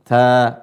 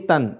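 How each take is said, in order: First: The syllable ends on a long vowel, no n. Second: The syllable ends with an n sound. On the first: The speaker calls it right. "jadi dibaca ta, diganti dengan alif" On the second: The speaker calls it wrong. "tanwin itu tidak berbunyi tan"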